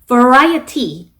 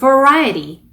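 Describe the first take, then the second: First: The t sound is clearly pronounced. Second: The t sound is dropped. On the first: "이렇게 T 발음을 살려서 발음하셔도 괜찮아요" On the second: "이렇게 T 발음 먹으셔도 되고"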